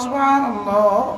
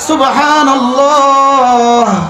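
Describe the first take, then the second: First: The 'h' sound is dropped and said quickly. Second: The 'h' sound is clearly pronounced. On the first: The speaker calls it wrong. "হাটা যদি বাদ দেন" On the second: The speaker calls it right. "হা হা হা"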